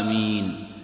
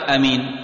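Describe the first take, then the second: First: The first vowel is drawn out long. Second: The first vowel is short, not lengthened. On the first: The speaker calls it right. "يمدها" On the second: The speaker calls it wrong. "بالهمس هكذا دون مد"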